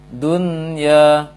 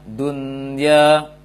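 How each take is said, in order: Both takes have the same delivery.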